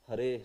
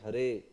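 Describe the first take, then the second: No difference in how they are said.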